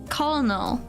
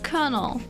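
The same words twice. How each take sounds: First: The word is pronounced the way it is spelled. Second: The word is pronounced unlike its spelling. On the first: The speaker calls it wrong. "I always read it as colonel" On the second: The speaker calls it right. "But it's colonel"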